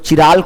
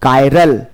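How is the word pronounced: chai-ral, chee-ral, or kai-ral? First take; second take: chee-ral; kai-ral. First: It starts with a 'ch' sound and 'ee' vowel. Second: It starts with a 'k' sound and 'eye' vowel. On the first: The speaker calls it wrong. "इसको चिराल कोई नहीं पढ़ेगा" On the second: The speaker calls it right. "क्या पढ़ेंगे इसको? कायरल।"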